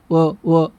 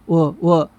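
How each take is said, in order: No difference in how they are said.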